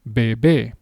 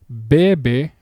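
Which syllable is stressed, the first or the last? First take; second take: last; first. First: The stress is on the last syllable. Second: The stress is on the first syllable.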